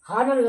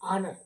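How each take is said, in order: First: The word begins with an h sound. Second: The word begins directly with a vowel. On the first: The speaker calls it wrong. "హానర్ కాదు" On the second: The speaker calls it right. "H silent letter"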